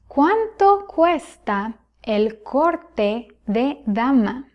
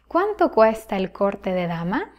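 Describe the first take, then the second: First: It is spoken at a slower pace. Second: It is spoken at a faster pace.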